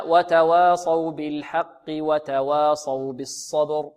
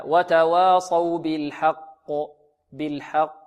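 First: "بالحق وتواصوا" linked without stopping, qaf voweled with i; joined recitation. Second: "بالحق" ended on a stopped, bouncing qaf; slow recitation, echo the final qaf of "بالحق"; stopping on qaf. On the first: Teacher shows linking verses, slow joined "بالحق وتواصوا". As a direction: run "بالحق" into "وتواصوا بالصبر" in one slow phrase. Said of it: "وإذا وصلنا". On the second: Teacher shows stopping on the word, echoed qaf in "بالحق". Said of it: "إذا وقفنا على كلمة حق ننطقها هكذا". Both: Shown as a demonstration.

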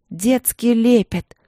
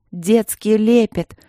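First: Slow, loud shout through tears. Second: Slow, loud and firm, stress on лепет. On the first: Sister shouting at Marina through tears, slow loud cry. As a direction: cry it out, holding back sobs. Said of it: "крикнула она". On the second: Vasilina repeats firmly to Marina, slow loud firm. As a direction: repeat it hard, each word set down. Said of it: "повторила Василина твёрдо". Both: A narrator's reading.

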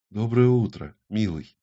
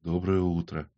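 First: Tag-less reply. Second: Quiet morning greeting. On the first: Lover answers his morning greeting. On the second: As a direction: murmur a hushed greeting to a lover. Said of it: "тихо произнёс". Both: A narrator's reading.

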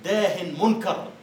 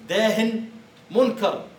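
First: "داه منكر" drawn out slowly, rising at the end; slow old-style quote. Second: "داه" and "منكر" louder and higher, each word on its own; emphatic quote. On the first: Teacher quoting old usage to students, slow and drawn out. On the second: Teacher repeating the old phrase to students, louder and emphatic. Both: Shown as a demonstration. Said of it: "يقولون في الكلام القديم".

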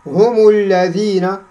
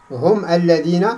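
First: هم الذين run together with a 'u' on the mim; linked with damma. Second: هم الذين split, closed 'hum' then 'alladhina'; unlinked sukun. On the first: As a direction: slowly join هم to الذين as 'humu-lladhina'. Shows linking with a damma. (وصل هم الذين بضم الميم) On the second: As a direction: stop on the mim of هم, start الذين afresh. Contrasts the unlinked form. (فصل هم الذين بتسكين الميم) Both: Shown as a demonstration.

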